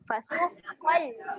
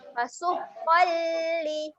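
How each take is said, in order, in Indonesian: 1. Bunyi akhirnya dibaca pendek. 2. Bunyi akhirnya dipanjangkan.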